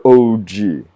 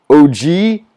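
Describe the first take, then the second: First: "O G" lengthened with a falling ending; falling tune. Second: "O G" drawn out, climbing high at the end; "O G" lengthened as a question; questioning tune. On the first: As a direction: stretch "O G" and let it drop. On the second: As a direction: stretch "O G" with a rising tune. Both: Shown as a demonstration. Japanese wordplay, two contrasting takes.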